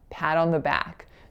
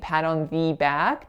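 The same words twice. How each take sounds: First: The word 'the' is strongly reduced. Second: The word 'the' is said in full form. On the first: The speaker calls it right. "the is super reduced" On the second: The speaker calls it wrong. "the lack of reduction on the word the"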